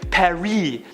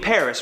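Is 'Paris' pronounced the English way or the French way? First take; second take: French; English. First: It is said the French way, without the final s. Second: It is said the English way, with the final s. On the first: The speaker is showing off a foreign affectation. "insists on pronouncing it Paris" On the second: The speaker uses the ordinary local pronunciation. "You mean Paris, right?"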